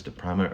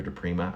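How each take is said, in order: First: "de Prima" with a long I, as PRY-ma; first pronunciation. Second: "de Prima" with a long E, as PREE-ma; second pronunciation. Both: Shown as a demonstration. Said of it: "whether it's de Prima or de Prima".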